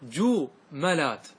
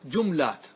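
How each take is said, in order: First: جملات as ju-ma-lat, slowly split; slow, separated syllables in جملات, "ma" in the middle; light fatha. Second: جملات as jum-lat; no vowel after the م in جملات; silent middle letter. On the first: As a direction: put an "a" after the م in جملات. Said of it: "لأن فتحة خفيفة". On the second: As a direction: close the first syllable on م in جملات. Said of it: "سكن الميم". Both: Shown as a demonstration.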